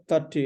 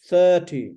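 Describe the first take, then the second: First: THIRTY with a quick, short first vowel; unstretched first syllable in THIRTY; too-short vowel. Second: THIRTY with a long, loud first syllable; held first syllable in THIRTY, then falling; elongated vowel. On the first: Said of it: "it's not thirty". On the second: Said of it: "it's elongated". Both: Shown as a demonstration.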